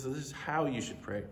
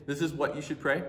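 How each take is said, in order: First: "how" lifted and leaned on; quieter, with "how" as the key word; stress on how. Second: Said in the usual way. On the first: Shown as a demonstration. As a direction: hit the word "how" in "This is how you should pray". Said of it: "He says". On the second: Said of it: "He doesn't say".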